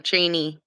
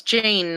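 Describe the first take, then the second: First: Janie as two syllables; "Janie", ending JAY-nee; pronounced Janie. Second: Jane as one syllable; "Jane", ending on the n; pronounced Jane. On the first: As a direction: say "Janie" with an ee on the end. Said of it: "it's Jane, not Janie". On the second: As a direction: say "Jane" with no ee on the end. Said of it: "not Janie". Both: Shown as a demonstration.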